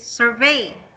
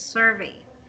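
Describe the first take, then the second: First: The stress is on the second syllable. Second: The stress is on the first syllable. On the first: The speaker calls it wrong. "You're saying it's survey" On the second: The speaker calls it right. "The intonation is at the first syllable, so it's survey"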